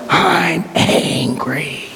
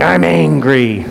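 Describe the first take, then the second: First: Very slow, strained higher cry of anger, imitated; deep-felt anger. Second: Drawn-out, higher-pitched imitation of yelling; mock yell. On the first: Jackson taps into anger at his absent dad, agonized angry cry. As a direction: drag it out as anger dredged up from inside. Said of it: "you hear the anger". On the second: A kid in group therapy starts voicing his anger, mild mock yell. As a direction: imitate a kid starting to yell, not yet deeply felt. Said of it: "just a kid yelling".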